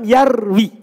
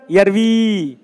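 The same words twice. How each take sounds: First: The final vowel is short. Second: The final vowel is long. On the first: The verb is in the jussive after lam. The speaker calls it right. "Jangan kasih panjang" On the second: The verb is still in the indicative. The speaker calls it wrong. "Bukan yarwi. Itu masih rofa"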